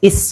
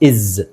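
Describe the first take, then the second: First: The word ends with a hissing S sound. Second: The word ends with a buzzing Z sound. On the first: The speaker calls it wrong. "ಇಸ್ ಇಸ್ ಅಂತ ಹೇಳಬಾರ್ದು" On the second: The speaker calls it right. "ಎಸ್ ಉಚ್ಚಾರಣೆ ಝೆಡ್ ಅಂತ ಹೇಳಬೇಕು"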